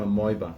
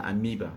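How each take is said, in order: First: "amoeba" said as a-MOY-ba; pronounced as spelled. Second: "amoeba" said as a-MEE-ba; correct English pronunciation. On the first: Explaining the home pronunciation, amoeba as a-MOY-ba. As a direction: say "amoeba" with an oy in the middle. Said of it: "We pronounce it as it's spelled". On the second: Teaching the actual English word, amoeba as a-MEE-ba. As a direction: say "amoeba" with a long ee in the middle. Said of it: "That's how it's pronounced". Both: Shown as a demonstration.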